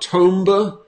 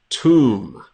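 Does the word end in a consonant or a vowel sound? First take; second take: vowel; consonant. First: An extra vowel sound is added at the end. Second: The word ends cleanly on the m sound. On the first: The speaker calls it wrong. "Not tomba" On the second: The speaker calls it right.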